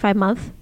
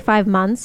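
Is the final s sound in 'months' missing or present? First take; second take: missing; present. First: The word months is said without its s sound. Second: The word months ends with a clear s sound. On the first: The speaker calls it wrong. "He doesn't say S's when he pronounces words" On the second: The speaker calls it right. "if you say 5 months"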